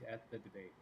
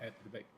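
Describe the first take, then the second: First: It is said in a plain, natural voice. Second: It is said in a put-on imitation voice. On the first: "I don't have a Kamala voice" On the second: "This is my Obama voice"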